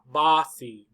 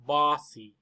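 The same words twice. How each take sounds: First: The first vowel sounds like open 'ah'. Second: The first vowel sounds like open 'ah'.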